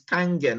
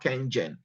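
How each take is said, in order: First: The first vowel sounds like 'ah'. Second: The first vowel sounds like 'eh'. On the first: The speaker calls it right. "It's Kangen, That's how it's pronounced in Japan" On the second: The speaker calls it wrong. "not Kengen"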